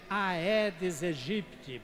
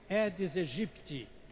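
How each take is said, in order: First: The 'ae' is said as two vowels, ah-eh. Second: The 'ae' is said as one vowel, eh. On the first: The speaker calls it wrong. "não é Aedes aegypti" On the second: The speaker calls it right. "se pronuncia E"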